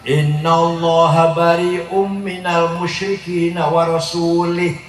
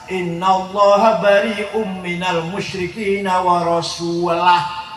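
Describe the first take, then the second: First: The final word ends with an 'ih' sound. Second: The final word ends with an 'ah' sound. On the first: God disowns the idolaters and disowns the Messenger. The speaker calls it wrong. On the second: God and the Messenger both disown the idolaters. The speaker calls it right. "Bacanya harus"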